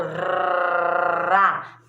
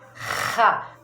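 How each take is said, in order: First: The r sound is made with the tongue. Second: The r sound is made in the throat. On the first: The speaker calls it wrong. "que faz na, na língua" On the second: The speaker calls it right. "que faz o som aqui na garganta"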